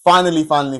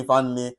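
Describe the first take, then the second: First: Finally said with a loud, rising push; emphatic finally. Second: Said in the usual way. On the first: Shown as a demonstration. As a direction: lean hard on both finally. Teacher stresses a final point.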